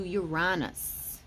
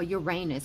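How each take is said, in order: First: "Uranus" said yoo-RAH-nus. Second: "Uranus" said yoo-RAY-nus. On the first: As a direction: stress the middle of "Uranus", with an open AH as in father. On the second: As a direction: stress the middle of "Uranus", with a long AY as in rain. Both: Shown as a demonstration. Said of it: "however you want to say".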